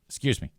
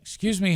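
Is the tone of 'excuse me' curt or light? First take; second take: curt; light. First: It is said in a short, sharp, irritated tone. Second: It is said in a light, airy, friendly tone. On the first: The speaker is annoyed with the person in the way. The speaker calls it wrong. "And I said it like that" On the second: The speaker is politely asking to pass. The speaker calls it right. "with that type of light, airy tone"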